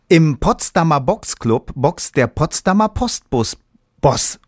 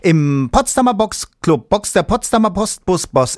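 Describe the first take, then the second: First: It is said fairly slowly. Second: It is said very fast.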